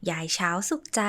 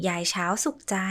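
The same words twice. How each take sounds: The two takes are said the same way.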